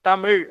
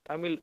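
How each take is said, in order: First: The word ends with a retroflex zha sound. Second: The word ends with a plain l sound. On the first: The speaker calls it right. "ழகரம் தமிழ் அப்படின்னு சொல்லணும்" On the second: The speaker calls it wrong. "நிறைய பேர் என்ன தெரியுமா சொல்லுவாங்க"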